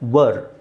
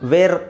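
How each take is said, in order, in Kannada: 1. ಈ ಸ್ವರ 'her' ಪದದಲ್ಲಿರುವ ಸ್ವರದ ತರ ಇದೆ. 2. ಈ ಸ್ವರ 'air' ಪದದಲ್ಲಿರುವ ಸ್ವರದ ತರ ಇದೆ. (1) "ಇಲ್ಲಿ ವ ಅಂತ ಹೇಳಬೇಕು" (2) "ವೇ ಅಂತ ಹೇಳ್ಬಾರ್ದು. ವೇರ್ ಅಲ್ಲ"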